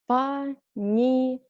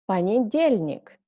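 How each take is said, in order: First: The word is said slowly. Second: The word is said fast. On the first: Said carefully, as a teacher would. "First time I read slowly" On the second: Said as a native speaker normally would. "second time I read faster, like a normal native speaker"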